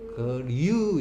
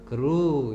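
First: The vowel after r sounds like yoo. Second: The vowel after r is a plain oo. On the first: The speaker calls it wrong. "그류 이상하잖아 발음이 억세죠?" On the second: The speaker calls it right. "우 편안하게 해라 했다. 그루 이래 돼"

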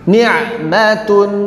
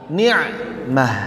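First: The word ends with a t and a vowel. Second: The word ends with an h sound. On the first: The word is read without stopping on it. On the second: The reader stops on the word.

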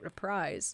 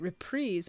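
First: The second syllable is said like 'reprisal'. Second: The second syllable is said unlike 'reprisal'. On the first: This is the pronunciation heard growing up. "I grew up hearing it reprise, like a reprisal" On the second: This is the pronunciation heard lately. "Lately, I've been hearing it reprise"

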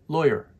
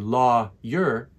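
First: The syllables are run together. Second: The syllables are said separately. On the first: The speaker calls it right. "We put it together and we say lawyer" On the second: The speaker calls it wrong. "We don't say lawyer"

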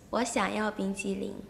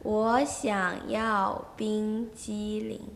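First: It is said at normal speed. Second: It is said more slowly.

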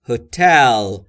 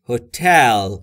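First: The stress falls on the second syllable. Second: The same.

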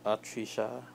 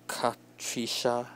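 First: The initial K sound is silent. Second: The initial K sound is pronounced. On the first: "because the K is supposed to be silent" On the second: "I guess that's how you pronounce it"

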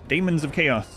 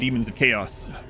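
First: The first vowel sounds like 'day'. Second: The first vowel sounds like 'dee'.

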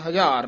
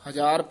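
First: The word is pronounced hard and forcefully. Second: The word is pronounced softly and gently. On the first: The speaker calls it wrong. "ਹਜ਼ਾਰ ਨਹੀਂ ਕਹਿ ਦੇਣਾ" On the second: The speaker calls it right. "ਹਜ਼ਾਰ ਪੁੱਲਾ ਹੀ ਬੋਲਣਾ"

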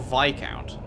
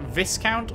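First: The S in the middle is silent. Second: The S in the middle is pronounced. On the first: "or not" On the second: "if you pronounce the S"

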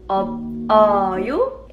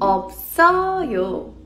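First: The final consonants stay in the first syllable. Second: The s sound moves onto the next syllable. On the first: The speaker calls it wrong. "Did you say it like" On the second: The speaker calls it right. "It's actually pronounced as"

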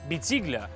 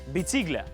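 The two takes are said the same way.

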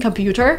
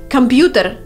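First: The word is said with an American pronunciation. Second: The word is said with a Russian pronunciation. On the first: "make it sound more American" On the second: "this is a Russian word"

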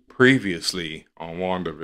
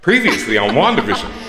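First: It is said in a dampened, low-energy voice. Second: It is said in a chipper, bright voice. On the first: The character's energy is being drained. "Dampens with every episode" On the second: The character is still full of energy. "chipper and bright"

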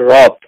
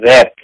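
First: The vowel sounds like the 'o' in cot. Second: The vowel sounds like the 'a' in cat. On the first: The speaker calls it right. "এদের উচ্চারণ হচ্ছে রথ, not র্যাক" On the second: The speaker calls it wrong. "আমাদের অনেক পাঠক বলে র্যাক"

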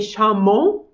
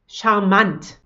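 First: It is pronounced the fully French way. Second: It is pronounced as a French-German mix. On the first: The speaker calls it wrong. "We don't say charmant" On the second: The speaker calls it right. "kind of a mix of French and German"

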